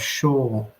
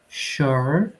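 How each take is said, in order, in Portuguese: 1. Não tem som de R e a vogal é mais longa. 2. Termina com um som de R claro. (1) "Vejam que não tem o som do R e ela deixa mais longa as palavras" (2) "Sotaques americanos, canadenses, ... falaria sure, sure"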